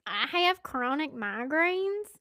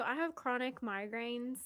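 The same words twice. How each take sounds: First: Slow, louder Southern restatement; higher, drawn-out Southern delivery; deliberate Southern re-say. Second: Unintended Southern accent; Southern twang slipping into normal talk; real Southern. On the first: Shown as a demonstration. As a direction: stretch it out loudly with Southern vowels. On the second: Real, not acted. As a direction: let a Southern accent slip out. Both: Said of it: "that came out real Southern".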